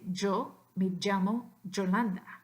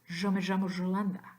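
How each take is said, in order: First: The y and ll sound like English j. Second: The y and ll sound like the s in pleasure. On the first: "the hat, like judge" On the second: "the Z with the hat, like in pleasure"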